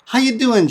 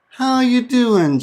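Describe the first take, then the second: First: The phrase is said at normal conversational speed. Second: The phrase is said slowly and deliberately.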